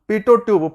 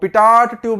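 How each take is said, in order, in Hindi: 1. पहला शब्द स्वर पर खत्म होता है, इसमें t नहीं है। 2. पहला शब्द छोटी 'tot' आवाज़ पर खत्म होता है। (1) "उसका नाम है पीटो ट्यूब" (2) "पिटॉट ट्यूब नहीं है"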